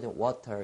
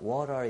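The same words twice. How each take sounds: First: The t is pronounced as a clear t. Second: The t is a soft, r-like flap. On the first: "이렇게 t 발음을 정확히 해주는" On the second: "영국에서는 water 이렇게 하지 않고"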